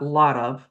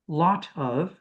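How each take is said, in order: First: The T is softened in an American way. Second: The T is crisp and released in British style. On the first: The speaker calls it wrong. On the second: The speaker calls it right.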